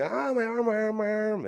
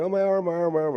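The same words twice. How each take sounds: First: High-pitched mock yell, imitating a hurt kid; mock scream. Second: High, loud whiny wail imitating a crying kid; mock crying. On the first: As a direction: wail it high like a kid screaming over a broken arm. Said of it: "And I'm screaming". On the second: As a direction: replay the childhood crying over the arm, half-hammed. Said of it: "And so I'm crying".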